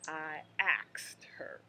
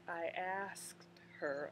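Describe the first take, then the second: First: The verb sounds like 'axed', with k after s. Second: The verb sounds like 'asked', with s before k. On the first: The speaker calls it wrong. "you just don't want to go in there saying" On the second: The speaker calls it right. "So the correct pronunciation is"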